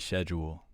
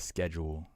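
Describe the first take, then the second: First: It is said in a British accent. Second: It is said in an American accent. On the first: "in the U K they say schedule" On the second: "instead of schedule"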